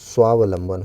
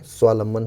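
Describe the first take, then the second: First: There is an extra 'v' sound in the middle. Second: There is no middle 'v' sound. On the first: The speaker calls it right. "एक वाह बीच में और लगेगा" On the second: The speaker calls it wrong. "शब्द नहीं होता है"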